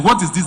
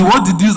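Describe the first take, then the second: First: "what is this" sung high and bright, as if it's beautiful; admiring what is this. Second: "what is this" flung out much louder and higher in disgust; offended what is this. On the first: Designer demonstrating the admiring kind of what is this, lilting. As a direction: croon "what is this" in delight at a lovely design. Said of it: "There's the". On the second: Designer demonstrating the offended client's what is this, loud. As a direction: snap "what is this" like the work insults you. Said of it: "And there's the". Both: Shown as a demonstration.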